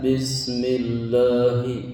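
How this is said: The voice is put on deep and booming. The speaker calls it wrong. "tidak ngebas"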